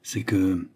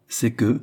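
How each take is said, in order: First: Said in the usual way. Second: Slightly lifted echo of C'EST QUE. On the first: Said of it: "dit le cardinal". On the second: A narrator's reading. Queen repeats the hesitant cardinal's words, echoing. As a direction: throw C'EST QUE back a little more forcefully. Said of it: "répétait la reine".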